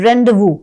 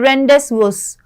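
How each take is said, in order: First: The s sounds are silent. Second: The s sounds are clearly pronounced. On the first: The speaker calls it right. "लेकिन इसकी pronunciation होती है ... एस जो है वो silent होता है" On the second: The speaker calls it wrong. "अगर आप नॉर्मली पढ़ोगे तो आप इसको पढ़ोगे"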